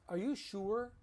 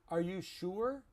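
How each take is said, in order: No difference in how they are said.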